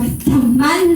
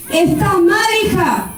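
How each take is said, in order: First: Said in the usual way. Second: "Está mal" higher, a firm rebuke; holy indignation. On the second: Retold or imitated. Preacher scolding the sister, indignant. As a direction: scold her with righteous zeal. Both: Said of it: "me agarró una era santa".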